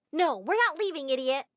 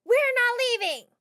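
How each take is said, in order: First: Yelled. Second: High, slow, loud yell; a crazy girl shouting up defiantly. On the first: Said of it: "one of the girls yelled". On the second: Fan girl yells up at the house, high slow shout. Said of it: "One of them yelled". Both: Acted.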